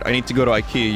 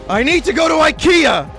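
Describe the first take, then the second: First: It is said at a normal volume. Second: It is screamed at full volume.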